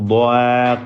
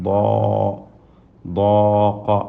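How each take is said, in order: First: The long a vowel is thin and light. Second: The long a vowel is full and heavy. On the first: The speaker calls it wrong. "ضാق എന്ന് പറയൂല" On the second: The speaker calls it right. "ضاق ضاق അല്ലേ"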